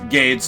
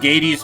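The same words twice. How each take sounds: First: The name does not rhyme with Hades. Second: The name rhymes with Hades. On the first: "not like Hades" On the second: "my mind went to like Hades, so I kind of make it made it rhyme with that"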